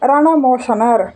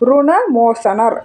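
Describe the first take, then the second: First: The first syllable has an a vowel. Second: The first syllable has a u vowel. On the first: The speaker calls it wrong. "சிலர் இவரை ரணமோசனர் அப்படின்னு சொல்லுவாங்க" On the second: The speaker calls it right. "தான் சொல்கிறது தான் சரியான முறை"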